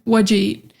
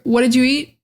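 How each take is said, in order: First: "What'd you" squashed into "whudja"; reduced form. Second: "did" kept and blended into "didju"; three-beat "What didju eat"; fuller linked form. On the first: Second of two versions learners hear, reduced form. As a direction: drop did, just "whudja eat". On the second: First of two versions learners hear, fuller linked form. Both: Shown as a demonstration. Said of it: "you're gonna hear".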